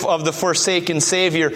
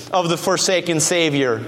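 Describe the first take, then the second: No difference in how they are said.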